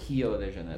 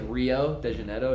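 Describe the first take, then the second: First: Rio begins with an H-like sound. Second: Rio begins with an English R sound.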